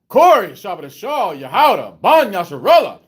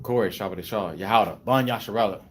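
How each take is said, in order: First: The voice is lifted up and stronger. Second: The voice is at a normal, lower level. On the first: The speaker calls it right. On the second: The speaker calls it wrong.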